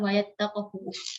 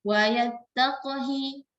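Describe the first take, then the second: First: The final vowel is a 'u' sound. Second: The final vowel is an 'i' sound. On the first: The speaker calls it wrong. "Jadi bukan wa yattaqhu" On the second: The speaker calls it right. "khususnya dibaca kasrah"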